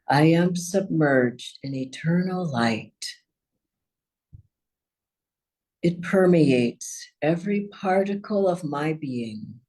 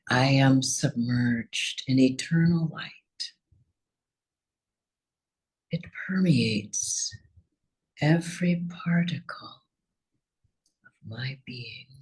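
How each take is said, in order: First: It is said at normal, fuller volume. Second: It is said more quietly, softly.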